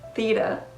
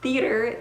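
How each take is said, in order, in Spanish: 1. La R final se elimina. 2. La R final se pronuncia. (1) "elimina la R al final de las palabras" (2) "en lugar de decir theater"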